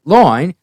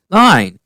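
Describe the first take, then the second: First: "loin" for "Line", pitched up; mock messed-up accent. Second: Said in the usual way. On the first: Actors echo the director, botched accent on "Line". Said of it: "her accent is messed up". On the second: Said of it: "And they're like".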